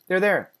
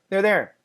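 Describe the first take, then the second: Both takes have the same delivery.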